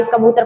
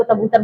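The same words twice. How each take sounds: First: Said in the usual way. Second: तबूतर, first K replaced by T; child's lisp. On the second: Shown as a demonstration. Teacher recalls the lisping example, T-for-K तबूतर. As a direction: say कबूतर as तबूतर, with T up front. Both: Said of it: "देखा lisping में".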